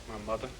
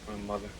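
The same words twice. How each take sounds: Both takes have the same delivery.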